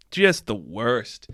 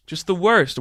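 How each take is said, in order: First: Slow, low "Just the worst"; low, slow and dripping with disgust; drawn-out disdain. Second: Said in the usual way. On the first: Real, not acted. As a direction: drag it out with contempt.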